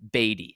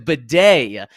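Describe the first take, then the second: First: The name sounds like 'baddie'. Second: The name sounds like 'bidet'. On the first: This was how he said his name last year. "his last name is pronounced Beatty. It's it's uh, B A D I E" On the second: This is how he now says his name. "He changed the pronunciation of his name last week to Bidet"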